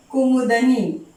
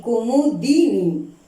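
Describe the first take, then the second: First: कुमुदनी said with a plain 'द' and no 'इ' sound after it; wrong pronunciation. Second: कुमुदिनी said slowly with a clear 'दि' syllable; correct pronunciation. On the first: Teacher showing students the wrong form, कुमुदनी. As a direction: say कुमुदनी as kumud-ni, the common mistake. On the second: Teacher correcting students, slowly giving कुमुदिनी. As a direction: say कुमुदिनी as ku-mu-di-ni, spelling out each syllable. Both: Shown as a demonstration. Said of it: "कुमुदनी नहीं".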